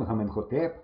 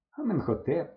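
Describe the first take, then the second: First: Said in the usual way. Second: Байдуже. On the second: A narrator's reading. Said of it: "байдуже сказав я".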